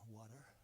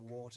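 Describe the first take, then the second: First: It is said with an American accent. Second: It is said with a British accent.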